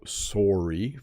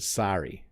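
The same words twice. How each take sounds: First: The first vowel sounds like a rounded O. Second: The first vowel sounds like an open A. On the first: This is how the speaker says it himself. "very O sound" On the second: This is how people in another region say it. "almost with an A sound"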